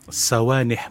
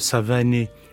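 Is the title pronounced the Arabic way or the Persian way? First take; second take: Arabic; Persian. First: The word is pronounced in an Arabic manner. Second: The word is pronounced in a Persian manner. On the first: "moi je le prononce à l'arabe" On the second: "si c'était la manière persane"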